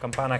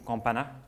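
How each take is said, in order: First: The name is said with English pronunciation. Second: The name is said with French pronunciation. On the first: The speaker calls it wrong. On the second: The speaker calls it right.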